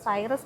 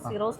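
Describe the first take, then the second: First: The first vowel sounds like 'eye', ending '-rus'. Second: The first vowel sounds like 'ee', ending '-ros'. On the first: The speaker calls it wrong. "ഞാൻ പറഞ്ഞത് സൈറസ് എന്നാണ്" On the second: The speaker calls it right. "സിറോസ് എന്നാണ് നമ്മൾ അതിനെ pronounce ചെയ്യുന്നത്"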